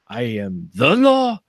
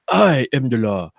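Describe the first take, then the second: First: The stress is on the word the. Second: The stress is on the word I.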